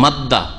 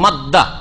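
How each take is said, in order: First: The two d sounds merge into one doubled d. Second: The same.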